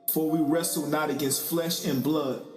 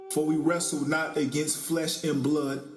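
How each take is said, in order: No difference in how they are said.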